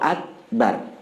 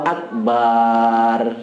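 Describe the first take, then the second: First: The syllables are short, ending on a bare r. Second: The vowel after the b is stretched long. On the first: It says that God is the greatest. The speaker calls it right. "Sunnah. ... Itu sunnah disukunkan" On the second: It turns the word into a large drum. The speaker calls it wrong. "manjang ke ba"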